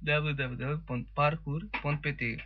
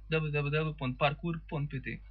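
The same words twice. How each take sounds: First: It is said slowly. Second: It is said fast.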